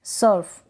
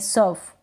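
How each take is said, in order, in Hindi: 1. r ध्वनि बहुत हल्की है। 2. r ध्वनि बहुत हल्की है।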